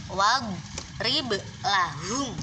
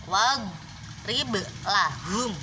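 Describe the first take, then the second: No difference in how they are said.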